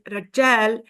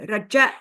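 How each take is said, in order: First: The word ends without a glottal catch. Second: The word ends with a glottal catch.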